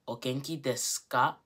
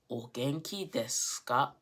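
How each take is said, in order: First: The u in desu is dropped, leaving s. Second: The u in desu is dropped, leaving s.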